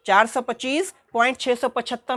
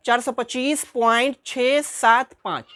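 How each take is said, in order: First: छः सौ पचहत्तर read as one whole number after the point; wrong reading. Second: Slow, with छः सात पाँच read as three separate digits. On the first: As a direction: show the mistake by saying छः सौ पचहत्तर as a single number. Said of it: "नहीं पढ़ना है". (गलत तरीका, छः सौ पचहत्तर पूरी संख्या की तरह) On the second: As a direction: after the point say छः सात पाँच one digit at a time, slowly. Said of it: "ऐसे पढ़ेंगे". (दशमलव के बाद अंक अलग-अलग, धीरे पढ़ें) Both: Shown as a demonstration.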